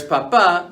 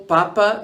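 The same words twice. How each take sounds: First: Papa with the last syllable stressed. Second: Papa with the first syllable stressed. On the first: Teacher showing the word for father, papa stressed on the last syllable. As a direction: say papa as pa-PA, weight at the end. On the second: Teacher showing the word for potato, papa stressed on the first syllable. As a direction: say papa as PA-pa, weight up front. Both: Shown as a demonstration. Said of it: "where to place the stress in a word".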